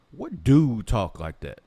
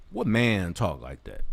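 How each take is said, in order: First: Louder, slow, drawn-out disbelief; outraged question. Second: Said in the usual way. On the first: Real, not acted. Ranting vlogger demands what man talks like Talib, loud and slow. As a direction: lean hard on every word, appalled.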